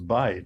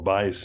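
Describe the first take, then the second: First: The word ends with a t sound. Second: The word ends with an s sound.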